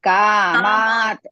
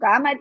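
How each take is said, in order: First: The second vowel is long. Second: The second vowel is short. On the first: The speaker calls it right. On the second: The speaker calls it wrong.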